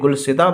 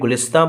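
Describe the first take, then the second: First: The word is said with the 'si' sound order. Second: The word is said with the 'is' sound order. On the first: This form fits the poem's meter. "कभी गुलसिता बोला जाता है, तो यहाँ हम गुलसिता बोलेंगे, हिंदुस्तान के वजन पर" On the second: This is the usual form of the word. "कभी गुलिस्तां बोला जाता है"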